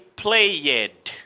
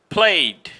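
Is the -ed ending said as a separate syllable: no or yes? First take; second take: yes; no. First: The -ed ending is said as an extra syllable. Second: The -ed ending adds no extra syllable. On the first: The speaker calls it wrong. "So you never say played" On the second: The speaker calls it right. "You just don't pronounce the E"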